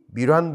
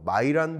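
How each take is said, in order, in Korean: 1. 이 이름은 'mee' 소리로 시작해요. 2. 이 이름은 'my' 소리로 시작해요. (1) "미란보고로서라고 알려져 있는" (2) "마이런이라고 발음하기로 공식적으로 이야기가 됐습니다"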